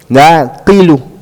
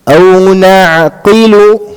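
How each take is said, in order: First: The word ends with a final vowel. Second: The word stops on its final consonant. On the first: The speaker calls it wrong. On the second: The speaker calls it right.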